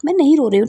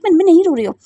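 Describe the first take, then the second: First: Said in the usual way. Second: Louder, stammered insistence on नहीं; stubborn denial with stress on नहीं; insistent denial. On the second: Acted. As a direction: push नहीं hard, half-stammering. Denies crying, repeats it.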